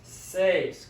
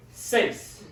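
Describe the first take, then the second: First: Seis drawn out in one syllable; slow demonstration. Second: Seis as a single syllable, like "says" with an S ending; one quick syllable. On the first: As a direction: say seis slowly for learners. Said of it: "say it slowly". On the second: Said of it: "really quick". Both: Shown as a demonstration.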